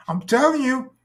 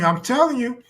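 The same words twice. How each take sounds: First: Even higher, insistent plea; higher pleading voice. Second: Higher voice, pleading. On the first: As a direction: insist in a high put-on voice. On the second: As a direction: plead it in a high voice. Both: Retold or imitated. Acting drunk woman pleading.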